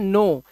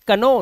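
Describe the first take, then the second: First: The word begins with an n sound. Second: The word begins with a k sound. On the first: The speaker calls it right. "इसे पढ़ते हैं नो" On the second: The speaker calls it wrong. "कनो नहीं"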